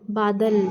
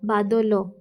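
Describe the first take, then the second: First: The word ends with a bare final consonant. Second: The word ends with a final vowel sound. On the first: This is the Hindi reading of the word. "बादल में देखिए last में लगा" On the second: This is the Odia reading of the word. "Odia में ये अगर इसको हम हटा देंगे, हल की मात्रा को हटाएंगे, क्या पढ़ेंगे?"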